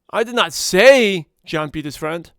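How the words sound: The word say carries the main stress. It may have been hinted at, not said. "if I emphasize the word say"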